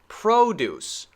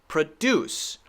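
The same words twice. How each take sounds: First: The stress is on the first syllable. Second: The stress is on the second syllable. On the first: It is used as a noun. "this one is a noun, we should say this one at the beginning stressed" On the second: It is used as a verb. "This one is a verb, so we should stress the second"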